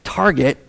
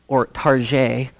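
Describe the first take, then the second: First: The name is said in a plain, ordinary way. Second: The name is said in a fancy, affected way. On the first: The everyday way most shoppers say the name. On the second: A mock-upscale way for sophisticated shoppers.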